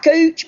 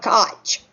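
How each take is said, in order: First: The name is said with an oo vowel. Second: The name is said with a long o vowel. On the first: The speaker calls it wrong. "Not Cooch" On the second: The speaker calls it right. "They pronounce it Koch"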